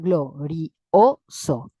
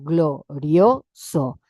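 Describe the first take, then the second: First: The two vowels are said as separate syllables. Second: The two vowels are joined in one syllable. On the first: "necesito leerla glorioso" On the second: "yo tengo la palabra glorioso"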